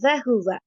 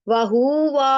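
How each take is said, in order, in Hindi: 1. सभी स्वर छोटे रखे जाते हैं। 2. दूसरा स्वर लंबा खींचा जाता है। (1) "दोनों तीनों को शॉर्ट रखना है।" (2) "वहूवा ऐसे भी नहीं करना"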